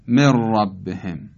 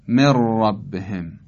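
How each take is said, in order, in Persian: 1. «ن» در یک «ر» مشدد ادغام میشود. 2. «ن» در یک «ر» مشدد ادغام میشود.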